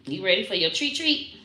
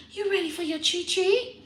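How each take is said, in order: First: Said in the usual way. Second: High rising pet voice; high teasing pet voice. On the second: Real, not acted. Repeated in baby talk.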